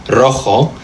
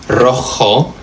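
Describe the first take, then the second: Both takes have the same delivery.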